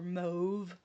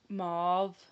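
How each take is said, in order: First: The word is said in a British pronunciation. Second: The word is said in a non-British pronunciation.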